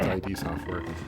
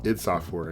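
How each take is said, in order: First: The first part is said as two letters. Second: The first part is said as one word. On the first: The speaker calls it right. "no, it's, it's I D Software" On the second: The speaker calls it wrong. "I always thought growing up that it was pronounced id Software"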